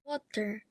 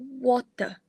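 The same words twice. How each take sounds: First: The final r sound is pronounced. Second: The final r sound is silent. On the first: "In General American, it often has a rhotic sound" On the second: "in General British, it's pronounced as uh"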